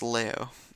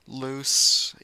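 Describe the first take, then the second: First: The word ends without an s sound. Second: The word ends with an s sound. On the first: This is the local pronunciation. "but in it's Leo" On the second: This is the usual English pronunciation. "Los is the common England English pronunciation"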